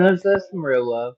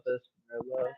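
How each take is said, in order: First: Loud, laughing, mock-sentimental; loud laughing sarcasm. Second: Softer, muttered repeat; quiet echo. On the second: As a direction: say it again under your breath. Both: Real, not acted.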